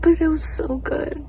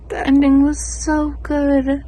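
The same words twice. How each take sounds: First: Whisper. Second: Excited gush. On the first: Whispered gush about the book. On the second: Louder gush about the book. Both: Real, not acted.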